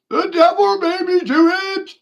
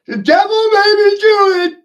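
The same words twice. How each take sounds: First: Very high, loud squeal, punching devil; mock sinner's wail. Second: Very high, very loud squeal, punching do; mock sinner's wail. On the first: Mocking excuse repeated. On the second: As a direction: scream the excuse like a cartoon sinner, hitting do. Mocking sinner's excuse.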